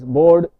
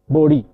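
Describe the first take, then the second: First: The name is said in a non-American way. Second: The name is said the American way. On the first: "The last name is sometimes pronounced as Bode" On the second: "the Americans normally called him Bode"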